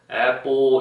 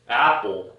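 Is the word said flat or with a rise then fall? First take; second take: flat; rise-fall. First: It is said flat, without a pitch movement. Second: The pitch rises on the first syllable, then falls.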